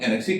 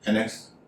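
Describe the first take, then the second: First: The word ends with an added 'ee' sound. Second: The word ends with a 'ks' sound. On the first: The speaker calls it wrong. "इसे कई लोग एनेक्सी करते हैं" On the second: The speaker calls it right. "इसका सही उच्चारण है एनेक्स"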